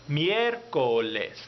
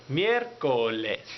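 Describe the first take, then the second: Both takes have the same delivery.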